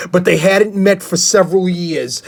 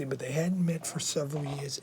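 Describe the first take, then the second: First: Said in the usual way. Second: Much softer, hushed retake of the line; quiet second reading of the sentence. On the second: Acted. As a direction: read it again under your breath. Rereads same line much softer.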